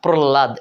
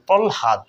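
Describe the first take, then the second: First: The l is doubled and no h is heard. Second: An l is followed by an h sound. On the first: The speaker calls it wrong. "লটাকে double double করে পড়ি, কিন্তু হয়ের উচ্চারণ করি না" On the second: The speaker calls it right. "লটা আগে উচ্চারণ করব, পরে হটা"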